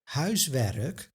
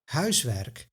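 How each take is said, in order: First: An extra uh vowel splits the final consonants. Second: No extra vowel splits the final consonants. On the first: "this extra uh sound" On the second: "instead of"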